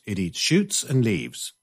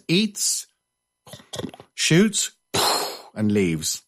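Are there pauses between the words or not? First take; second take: no pauses; pauses. First: It is said smoothly, without pauses. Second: It is said with pauses between words.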